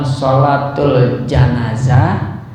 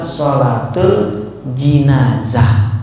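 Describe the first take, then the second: First: The first vowel of janazah is 'a'. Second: The first vowel of jinazah is 'i'. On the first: "Bisa dibaca jimnya fathah" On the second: "bisa juga dibaca jimnya kasroh"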